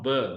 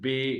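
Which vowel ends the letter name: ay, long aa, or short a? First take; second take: short a; ay. First: The letter name ends in a short a. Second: The letter name ends in an ay. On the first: The speaker calls it wrong. "This is not ब" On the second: The speaker calls it right. "This is बे"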